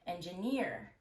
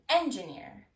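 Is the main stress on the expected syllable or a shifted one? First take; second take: expected; shifted. First: The main stress falls on the usual syllable. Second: The main stress falls on a misplaced syllable. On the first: The speaker calls it right. "instead of" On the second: The speaker calls it wrong. "misplacing primary stress"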